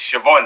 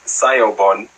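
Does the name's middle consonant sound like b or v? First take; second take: v; b. First: The middle consonant sounds like v. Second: The middle consonant sounds like b. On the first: The name is said the way its owner says it. The speaker calls it right. "no, it's not, it's Siobhan" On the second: The name is being read straight from its spelling. The speaker calls it wrong. "I used to read off a paper"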